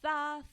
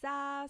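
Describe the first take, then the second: First: The first consonant is a th sound. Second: The first consonant is an s sound. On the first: This is how it is said in most of Spain. "whereas in Spain, most of Spain, it would be" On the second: This is how it is said in Latin America. "in Latin America, we would say"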